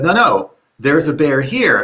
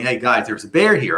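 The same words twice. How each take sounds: First: Mildly urgent retold warning; insist, with a touch of alarm; imitating a friend who means it now. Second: Said in the usual way. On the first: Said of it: "hear in his sound that something's wrong". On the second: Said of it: "he was, like, this funny guy".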